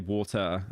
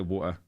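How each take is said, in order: First: The T sound in the middle is clearly pronounced. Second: The T sound in the middle is dropped. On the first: "I don't say water" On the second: "I remove the letter T a lot"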